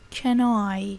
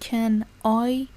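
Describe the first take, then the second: First: The two words are linked together. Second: The two words are said separately. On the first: The speaker calls it right. "به هم وصلش میکنه، میگه Can I" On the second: The speaker calls it wrong. "Can I نمیگه"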